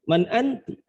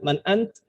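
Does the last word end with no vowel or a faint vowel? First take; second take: faint vowel; no vowel. First: The last word ends in a soft, partial vowel. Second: The last word ends in a bare consonant. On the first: It is clear that a woman is addressed. The speaker calls it right. "ketika dibaca ti-nya pelan itu" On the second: It is unclear whether a man or a woman is addressed. The speaker calls it wrong.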